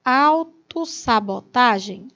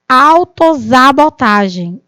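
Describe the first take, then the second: First: The middle consonant sounds like s. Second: The middle consonant sounds like z. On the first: The speaker calls it right. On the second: The speaker calls it wrong.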